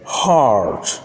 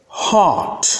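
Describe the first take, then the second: First: "heart" with a sounded r; American pronunciation. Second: "Heart" as "haht", r dropped; British pronunciation. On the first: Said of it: "that's American". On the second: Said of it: "that's British". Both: Shown as a demonstration.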